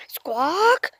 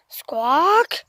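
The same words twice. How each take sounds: First: Whispered rising squawk. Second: Voiced rising squawk. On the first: Pretend. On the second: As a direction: call out like a parrot. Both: I heard that.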